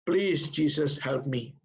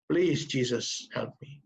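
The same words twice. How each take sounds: First: Said in the usual way. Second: Slow plea fading to almost nothing; tearful plea. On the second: Retold or imitated. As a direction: beg slowly, trailing off in tears. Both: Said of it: "dengan air mata dia berkata".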